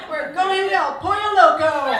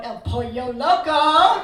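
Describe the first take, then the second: First: Loud, laughing declaration of "El Pollo Loco"; defiant and laughing. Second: Slow, loud, drawn-out "El Pollo Loco" with laughter; mock the husband stretching "Pollo Loco"; imitating husband's teasing. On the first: Real, not acted. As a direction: announce the treat through laughter. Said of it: "He's not taking my joy today". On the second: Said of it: "he kept looking over going".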